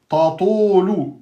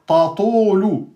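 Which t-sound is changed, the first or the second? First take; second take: first; first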